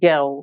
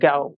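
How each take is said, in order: First: It is said in a British accent. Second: It is said in a British accent.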